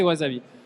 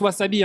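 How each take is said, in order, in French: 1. La consonne du milieu est un son z sonore. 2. La consonne du milieu est un son s net. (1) "mais en français c'est wasabi" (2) "en japonais se prononce wasabi, hein. Le S se prononce S"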